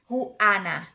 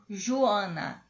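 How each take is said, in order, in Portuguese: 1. A vogal A tônica soa aberta. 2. A vogal A tônica soa nasal. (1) "Sempre assim, aberto" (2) "Joana seria em português"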